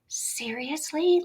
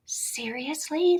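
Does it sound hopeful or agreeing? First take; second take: hopeful; hopeful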